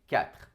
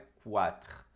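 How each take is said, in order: First: The word begins with a plain k sound. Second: The word begins with a kw sound. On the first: The speaker calls it right. "É quatre, com o som de K" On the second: The speaker calls it wrong. "Nunca falem esse Q U como qua. Não é quatre"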